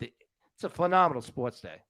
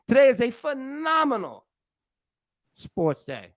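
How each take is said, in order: First: Mixed Philly, Boston and New York accent; Northeast accent. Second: Said in the usual way. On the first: Shown as a demonstration. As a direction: say it like a guy from the Northeast. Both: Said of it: "Let me say it like all my friends up in the north".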